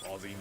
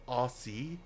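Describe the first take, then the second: First: It is said in an Australian accent. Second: It is said in an American accent. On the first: "Whereas we're just like" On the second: "as Americans or Canadians say"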